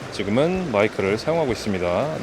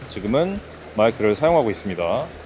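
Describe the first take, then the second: First: Background noise is clearly heard behind the voice. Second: Background noise is mostly removed behind the voice. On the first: "노이즈 캔슬링은 꺼진 상태예요" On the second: "지금은 노이즈 캔슬링을 켜고 마이크를 사용하고 있습니다"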